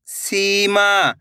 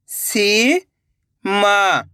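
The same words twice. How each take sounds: First: Said in the usual way. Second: "Seema" split into two long syllables. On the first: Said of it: "तो मिलके बन जाएगा". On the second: Shown as a demonstration. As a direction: draw out सी, pause, then मा in "Seema". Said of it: "एक एक अक्षर का उच्चारण". ("सीमा" को तोड़कर, सी... मा)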